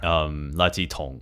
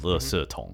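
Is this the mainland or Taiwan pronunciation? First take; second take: mainland; Taiwan. First: It uses the mainland pronunciation. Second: It uses the Taiwan pronunciation. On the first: This is how it is said on the mainland. "like mainland" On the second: This is how it is said in Taiwan. "instead of Li Si Tong"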